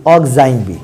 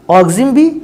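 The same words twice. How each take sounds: First: ऑक्जाइम as ok-zaim, lower pitched; alternate oxime pronunciation. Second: ऑक्जिम as ok-zim, short clipped i; oxime pronunciation. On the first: Teacher showing students the ok-zaim reading of ऑक्जाइम. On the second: Teacher showing students the ok-zim reading of ऑक्जिम. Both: Shown as a demonstration. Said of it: "कुछ लोग इसको ऑक्जाइम पढ़ सकते हो".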